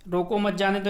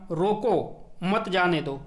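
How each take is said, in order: First: Said in the usual way. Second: रोको held, a break, then मत जाने दो together; pause after रोको. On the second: Shown as a demonstration. Teacher showing students where the punctuation goes, pause after रोको. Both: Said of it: "यानी यहाँ पे लगा दो विराम".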